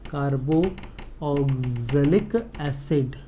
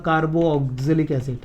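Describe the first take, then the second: First: Carboxylic broken into long, separate syllables; softer, lower, extremely slow carboxylic; very slow dictation. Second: Said in the usual way. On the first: Real, not acted. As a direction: drag out carboxylic as if writing each part. Repeats the term while writing.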